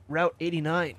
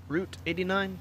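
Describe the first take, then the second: First: Said in the usual way. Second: Rising, doubtful re-read of the road name; puzzled question. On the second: Shown as a demonstration. Gamer rereading a location card, puzzled and questioning. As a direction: say Route eighty-nine as if unsure it's right. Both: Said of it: "Who knows?".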